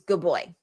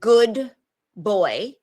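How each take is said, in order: First: The two words blend smoothly into one another. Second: The two words are said separately and clearly.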